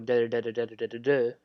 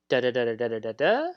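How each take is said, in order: First: The pitch falls at the end. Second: The pitch rises at the end. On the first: It is a definitive statement. "when you are making a definitive statement, it goes down" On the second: It is a question. "when you get a question, you your inflection goes up"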